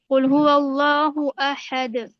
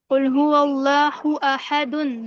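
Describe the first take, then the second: First: The last word stops on a bouncing 'd' sound. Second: The last word ends with a nasal 'un' sound. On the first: The reciter stops at this word. "पेश की जो तनवीन है वो खत्म हो जाएगी" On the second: The reciter continues without stopping. "दाल दो पेश दुन"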